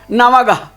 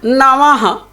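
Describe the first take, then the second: First: The last syllable starts with a g sound. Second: The last syllable starts with an h sound. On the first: The speaker calls it wrong. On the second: The speaker calls it right.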